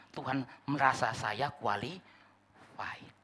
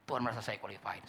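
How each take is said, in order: First: Slow, self-satisfied; drawn out like a proud claim; savoring being qualified; smug assumption. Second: Much softer, lower echo; hushed afterthought; quiet repeat. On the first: Mocking the presumptuous view. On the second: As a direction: let it sink in softly. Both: Acted.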